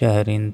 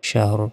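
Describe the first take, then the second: First: The word ends with an added -in sound. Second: The word ends on the bare consonant r. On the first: The reading continues without stopping. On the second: The reading stops on this word.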